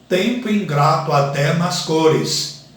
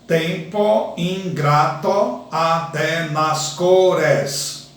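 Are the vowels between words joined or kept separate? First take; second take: joined; separate. First: The vowels between words are joined together. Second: The vowels between words are kept separate. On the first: "quando eu pronuncio naturalmente este verso" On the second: "Eu tenho dez sílabas gramaticais"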